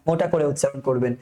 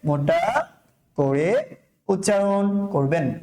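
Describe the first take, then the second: First: Said in the usual way. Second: Slow, with pauses between the words; word-by-word dictation. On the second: Shown as a demonstration. Teacher repeating the rule to students, slow and separated. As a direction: spell the rule out piece by piece.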